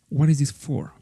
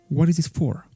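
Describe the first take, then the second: Both takes have the same delivery.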